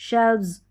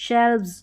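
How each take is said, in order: No difference in how they are said.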